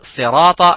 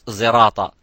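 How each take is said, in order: First: The word begins with an emphatic S sound. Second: The word begins with a Z sound. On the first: The speaker calls it right. "You would say uh" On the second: The speaker calls it wrong. "you wouldn't say in Riwayat Hafs"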